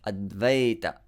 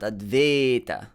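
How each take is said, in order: First: The vowel after v glides as ay. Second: The vowel after v is a flat a. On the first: The speaker calls it right. "Ay, ay" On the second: The speaker calls it wrong. "don't uh, smudge it into A"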